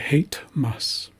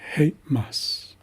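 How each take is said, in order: First: A t sound separates hey and mas. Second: A brief catch in the throat separates hey and mas. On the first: The speaker calls it wrong. "I sometimes hear people say hate mas" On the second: The speaker calls it right. "that's the most accurate pronunciation"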